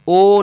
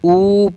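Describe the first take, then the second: First: The vowel is an oh sound instead. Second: The vowel is a long, drawn-out oo sound. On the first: The speaker calls it wrong. "ओ नहीं पढ़ेंगे। ओ हो पढ़ेंगे तो ये मजहूल हो जाएगा" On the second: The speaker calls it right. "यानी ऊ पढ़ेंगे"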